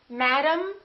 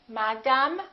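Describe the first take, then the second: First: The last vowel is reduced to a short 'um'. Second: The last vowel is fully pronounced, not reduced. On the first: The speaker calls it right. "we reduce and we stress" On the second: The speaker calls it wrong. "Don't say madame"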